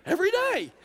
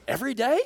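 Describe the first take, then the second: First: "Every day" much higher, then falling firmly; emphatic confirmation. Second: Imitated disbelief with a rising end; incredulous question. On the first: Retold or imitated. Woman answers the rabbi about "Every day", emphatic confirmation. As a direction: confirm "Every day" with a high, decisive drop. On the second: Rabbi asks about cowboy clothes, mildly incredulous question. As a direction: ask it as if checking you heard right. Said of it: "He goes".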